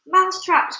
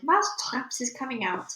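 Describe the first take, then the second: First: High, loud crowd echo; loud cry. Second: Understated shout. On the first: Witches echo their leader, loud high cry. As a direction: exclaim it as an astonished chorus. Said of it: "cried the witches". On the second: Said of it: "raised her voice louder than ever and shouted". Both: A narrator's reading.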